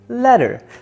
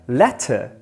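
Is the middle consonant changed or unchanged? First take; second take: changed; unchanged. First: The middle consonant is modified in context. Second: The middle consonant is said plainly, unchanged.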